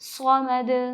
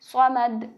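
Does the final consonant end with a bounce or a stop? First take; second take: bounce; stop. First: The final consonant is released with an echoing bounce. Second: The final consonant is held with no bounce. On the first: The speaker calls it right. "पलट के आवाज़ वापस आएगी, जैसे स्क़मद" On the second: The speaker calls it wrong. "आवाज़ को ऐसे रोक देते हैं"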